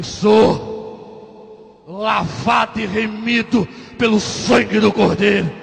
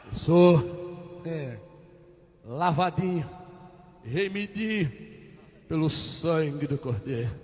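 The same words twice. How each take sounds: First: Slow, full-voiced declaration of faith; proud declaration. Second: Small, low, hesitant voice; meek answer. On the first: Patient answering the big sergeant, slow proud proclamation. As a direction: take a breath and proclaim it, drawn out. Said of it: "tomei ar, falei". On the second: Acted. Patient cowed by the sergeant's questioning, meek low voice. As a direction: shrink the declaration, halting and soft.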